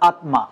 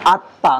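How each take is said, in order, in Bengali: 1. "m" ধ্বনিটি স্পষ্টভাবে উচ্চারিত হয়। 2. "m" ধ্বনিটি নীরব। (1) "নট আত্মা" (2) "কিন্তু উচ্চারণ কি হবে? আত্মা"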